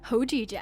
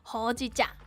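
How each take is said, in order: First: It is said posh, with a 'j' sound. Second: It is said plainly, with a 'ch' sound.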